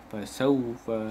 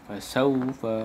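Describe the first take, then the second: Both takes have the same delivery.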